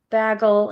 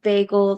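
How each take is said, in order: First: It is said with a Wisconsin accent. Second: It is said with a standard accent. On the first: "Vag bagel" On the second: "instead of bagel"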